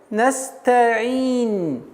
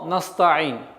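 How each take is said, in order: First: The s sound is held long before t. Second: The s sound is cut short before t. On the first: The speaker calls it right. "Итого получается настаин" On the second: The speaker calls it wrong. "как только вы уменьшаете правильное произношение, время правильного произношения звука син"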